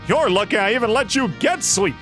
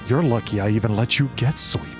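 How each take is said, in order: First: It is said in a lively, animated voice. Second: It is said in a flat, harsh monotone. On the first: The speaker calls it wrong. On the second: The speaker calls it right.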